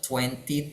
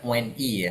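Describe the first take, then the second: First: The first t sound is pronounced. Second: Both t sounds are dropped. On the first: The speaker calls it right. "tapi tetap twenty, T yang depan ada" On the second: The speaker calls it wrong. "jangan dibaca twenty ya. T-nya dihilangin semua"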